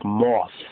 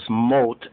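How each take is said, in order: First: The word ends with a th sound. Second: The word ends with a t sound. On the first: "so almost like moth" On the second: "More correct is mot, M-O-T"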